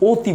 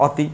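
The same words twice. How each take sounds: First: অতি with the first vowel as ও, like ওতি; correct pronunciation. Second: অতি with the first vowel open, as written অ; অতি said the wrong way, open অ at the start; wrong pronunciation. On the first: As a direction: say অতি the right way, starting on ও. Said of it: "আমরা বলি অতি". (সঠিক উচ্চারণ: অতি, শুরুতে ও ধ্বনি) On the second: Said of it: "অতি বলি না". (ভুল উচ্চারণ: অতি, শুরুর অ খোলা) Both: Shown as a demonstration.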